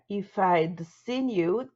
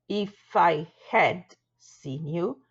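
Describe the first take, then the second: First: Had is shortened to a single d sound. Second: Had is said as a full separate word.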